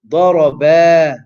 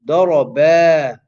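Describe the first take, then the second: First: The final vowel is stretched out long. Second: The final vowel is stretched out long.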